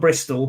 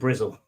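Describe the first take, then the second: First: The name is said with a clear 's-t' sound. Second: The name is said with a 'z' sound instead. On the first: This is the standard form of the name. "It's from Bristol" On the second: This is how people there commonly say it. "but everyone calls it Brizzle"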